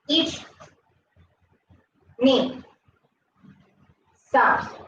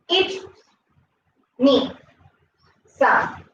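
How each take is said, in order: First: It is said at a slower pace. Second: It is said at a faster pace.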